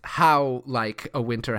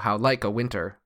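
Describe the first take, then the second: First: The stress falls on the word how. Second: The stress falls on the word like. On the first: "with the stress on how and not okay. like" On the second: "You could also just go how like a winter"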